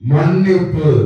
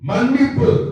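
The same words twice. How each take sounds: First: An impression of the actor's older voice. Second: An impression of the actor's younger voice. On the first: "2001 இந்த ரமணா அப்படின்னு ஒரு படம் வந்தது. அந்த படத்துல அவருடைய வாய்ஸ்" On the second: "1980 அந்த காலகட்டத்தில் அவருடைய வாய்ஸ் எப்படி இருப்பாரு"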